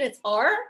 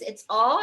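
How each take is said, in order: First: The R is said in an American accent. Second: The R is said in a British accent.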